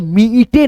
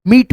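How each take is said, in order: First: "मीटे" said with an extra e sound on the end; wrong reading. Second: "मीट" with a long ee and a crisp final t, no added vowel; correct reading. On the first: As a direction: read "मीटे" as two syllables, mee-te, the wrong way. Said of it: "इसको हम लोग मीटे नहीं पढ़ेंगे". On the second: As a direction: model "मीट" cleanly like the English word meat. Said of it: "मीटे नहीं पढ़ेंगे, मीट पढ़ेंगे". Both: Shown as a demonstration.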